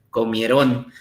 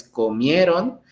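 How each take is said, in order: First: "comieron" stressed on last syllable RON, low; wrong final stress. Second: "comieron" stressed on the middle syllable MIE; correct stress on MIE. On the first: Teacher mimicking students' mistake, stress on RON in "comieron". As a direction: say co-mie-RÓN, as if accented on the end. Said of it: "no, no se hace así". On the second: Teacher showing how the word is said, stress on MIE in "comieron". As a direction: say co-MIE-ron, last syllable unstressed. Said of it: "la sílaba tónica es la antepenúltima". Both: Shown as a demonstration.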